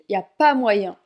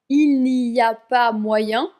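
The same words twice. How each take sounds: First: The opening words are dropped or run together. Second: Every word is pronounced fully and carefully. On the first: The speaker calls it right. "mais on dit" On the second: The speaker calls it wrong. "à l'oral, on ne dit pas"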